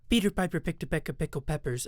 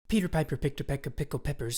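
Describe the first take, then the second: First: The voice sounds dry, with little room echo. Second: The voice sounds echoey, with audible room reflections. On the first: The speaker calls it right. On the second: The speaker calls it wrong. "without the treatment"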